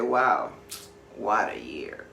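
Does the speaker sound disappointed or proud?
disappointed. It sounds disappointed and regretful. The year passed with little accomplished. "Same words, different meaning"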